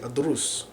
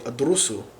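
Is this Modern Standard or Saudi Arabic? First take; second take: Saudi; Modern Standard. First: It ends without a final vowel. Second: It ends with a final -u vowel.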